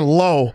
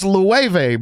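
First: The word is said like 'low' with no V. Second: The word is said like 'loov' with a V. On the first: The speaker calls it wrong. "I was saying low" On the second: The speaker calls it right. "the first guy to tell me that shit was pronounced Lueve"

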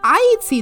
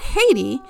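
First: It is said as ah-yee-tee, like Ayiti. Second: It is said as hay-tee, the usual modern form. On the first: This is the original native name of the island. The speaker calls it right. "and Haiti is spelled A-Y-I-T-I" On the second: This is the later modern name of the country. The speaker calls it wrong. "not Haiti"

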